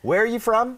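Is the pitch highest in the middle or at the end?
end. The pitch rises high at the end. The asker has forgotten and is confused. "อันนี้คือสับสนนะครับ"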